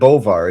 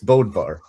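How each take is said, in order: First: The name is said without a d sound. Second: The name is said with a d sound. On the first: The speaker calls it wrong. "You said Bovar" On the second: The speaker calls it right. "It's Bodvar"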